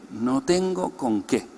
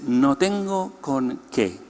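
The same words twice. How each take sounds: The two takes are said the same way.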